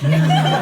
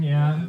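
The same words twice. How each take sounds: First: Lazy stoner "Yeah"; laziest sounding dude. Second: Said in the usual way. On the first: Retold or imitated. Audience weed smoker answering the comic, lazy drawl. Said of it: "the fucking laziest sounding dude goes".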